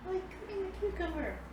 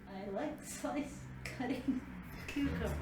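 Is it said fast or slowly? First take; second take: fast; slowly. First: It is said fast. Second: It is said more slowly.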